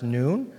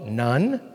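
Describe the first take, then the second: First: The vowel is a long oo, like moon. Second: The vowel is a short u, like sun. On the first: "it's pronounced Noon" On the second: "You and I typically call it Nun"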